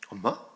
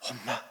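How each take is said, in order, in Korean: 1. 보통 크기로 부르고 있어요. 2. 목소리를 낮춰서 부르고 있어요.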